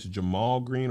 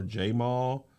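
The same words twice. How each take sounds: First: Jamal said juh-MALL, short unstressed first syllable. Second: Jamal said JAY-mall, first syllable like the letter J. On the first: Host unsure of the activist's name, Jamal as juh-MALL. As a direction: say Jamal with a quick "juh" at the start. He has an apostrophe. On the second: Host offering the other reading, Jamal as JAY-mall. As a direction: say Jamal with a full "jay" at the start. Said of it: "he has an apostrophe". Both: Shown as a demonstration.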